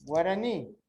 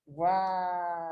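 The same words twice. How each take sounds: First: Said in the usual way. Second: "Guarani" stretched slowly, syllable by syllable; slow, sustained gua... ra... ni for "Guarani"; separated into syllables. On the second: Shown as a demonstration. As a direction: draw out each syllable of "Guarani". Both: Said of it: "separá-la em sílabos".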